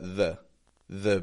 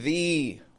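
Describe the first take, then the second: First: The vowel is reduced to a schwa. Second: The vowel is full and unreduced. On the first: The speaker calls it right. "So we've got a schwa in the" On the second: The speaker calls it wrong. "I'm not saying the"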